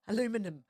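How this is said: It is said with an American pronunciation.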